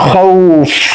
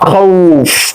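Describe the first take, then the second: First: The word stops on the final consonant. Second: The word stops on the final consonant.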